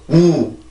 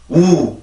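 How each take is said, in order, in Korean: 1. 이 모음은 긴장되어 있고, 입술을 바짝 오므립니다. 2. 이 모음은 긴장되어 있고, 입술을 바짝 오므립니다.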